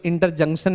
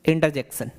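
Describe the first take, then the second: First: इंटरजंक्शन with nasal "JUNK" in the middle; wrong pronunciation. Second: इंटरजेक्शन with "JEK" in the middle; correct pronunciation. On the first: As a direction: say इंटरजंक्शन as "inter-junk-shan". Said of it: "नहीं बोलना है". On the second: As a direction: say इंटरजेक्शन as "inter-jek-shan", no nasal. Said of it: "इसको इंटरजंक्शन नहीं बोलना". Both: Shown as a demonstration.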